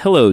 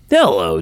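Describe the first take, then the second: First: It is said in the speaker's normal voice. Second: It is said in an imitated Dave voice.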